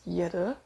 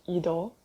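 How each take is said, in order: First: It begins with a 'y' sound before the vowel. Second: It begins directly with a vowel sound. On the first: The speaker calls it wrong. "which I used to pronounce Yeder, adding extra E behind the Y for no reason" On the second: The speaker calls it right. "I realized it's actually pronounced Idol in Korean"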